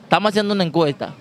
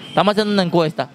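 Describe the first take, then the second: No difference in how they are said.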